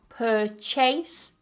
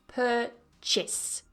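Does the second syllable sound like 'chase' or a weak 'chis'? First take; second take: chase; chis. First: The second syllable sounds like 'chase'. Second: The second syllable sounds like a weak 'chis'. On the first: The speaker calls it wrong. "don't try and pronounce that second syllable as chase. It's not purchase" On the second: The speaker calls it right. "but purchase. Chis"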